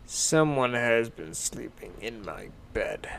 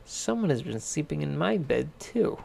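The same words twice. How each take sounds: First: A gruff-ish Papa Bear, lightly voiced; father bear noticing moved blankets. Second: Mother bear in a near-plain voice; lightly voiced mother bear; mother bear echoing the father; Mama Bear. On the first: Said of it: "said Papa Bear". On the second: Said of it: "said Mama Bear". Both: A narrator's reading.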